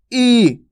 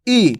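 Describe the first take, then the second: First: ई drawn out long; long vowel demo. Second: ई said short and clipped; vowel demo. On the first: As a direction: hold ई long. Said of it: "इसका उच्चारण खींच के होता है ई". (ई को खींचकर लंबा बोलिए) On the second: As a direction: give ई a quick short sound. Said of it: "कैसे उच्चारण होता है इसका". (ई को छोटा और झटके से बोलिए) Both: Shown as a demonstration.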